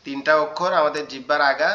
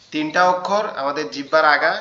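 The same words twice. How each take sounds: The two takes are said the same way.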